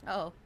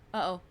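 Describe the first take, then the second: No difference in how they are said.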